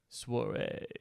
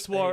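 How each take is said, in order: First: It is said in an exaggerated, sultry put-on voice. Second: It is said in an ordinary speaking voice.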